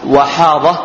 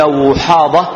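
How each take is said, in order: First: وحاضة as Wahada, a after waw; fatha on waw. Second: وحاضة as Wuhada, u after waw; damma on waw. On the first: Teacher gives the clan's other reading, fatha on waw. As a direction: give وحاضة an open a vowel. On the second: Teacher names the clan behind the surname, damma on waw. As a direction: give وحاضة its u vowel. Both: Shown as a demonstration. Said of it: "ويجوز كذلك فتحها".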